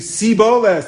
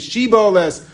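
First: The word begins with a plain 's' sound. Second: The word begins with an 'sh' sound. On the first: The speaker cannot produce the 'sh' sound. The speaker calls it wrong. "couldn't say the Shin. They could only say Siboles" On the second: The speaker can produce the 'sh' sound. The speaker calls it right. "They couldn't say Shiboles"

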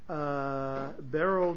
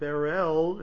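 First: The stress is on the first syllable. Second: The stress is on the last syllable. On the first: "The way I just pronounced it" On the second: "I have heard the accent at the end"

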